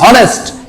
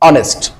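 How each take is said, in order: First: The word starts with an h sound. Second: The word starts directly with a vowel. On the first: The speaker calls it wrong. "নয়তো হবে হনেস্ট" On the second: The speaker calls it right. "আমরা উচ্চারণ করব অনেস্ট"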